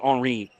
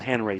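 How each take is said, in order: First: The name is said with French pronunciation. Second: The name is said with English pronunciation. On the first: The speaker calls it right. "He wants to go with the French pronunciation" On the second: The speaker calls it wrong. "not Henry"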